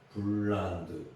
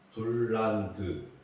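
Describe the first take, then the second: No difference in how they are said.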